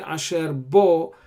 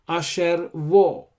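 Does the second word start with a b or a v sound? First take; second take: b; v. First: The second word starts with a b sound. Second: The second word starts with a v sound. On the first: "Here we say asher bo" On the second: "this dagesh is not not there, so you pronounce it asher vo"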